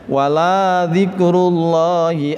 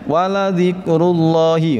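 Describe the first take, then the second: First: The vowel in la is drawn out long. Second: The vowel in la is kept short. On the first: The speaker calls it wrong. "la-nya dibaca panjang" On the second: The speaker calls it right.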